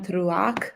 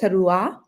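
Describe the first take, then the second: First: The word ends with a throaty 'ch' sound. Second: The word ends with a plain 'ah' sound. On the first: The speaker calls it wrong. "I actually pronounced it Yom Teruach earlier today" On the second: The speaker calls it right. "it was just the A H. So Teruah"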